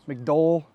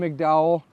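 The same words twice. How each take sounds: First: The name is said the local way. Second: The name is said the speaker's ordinary way.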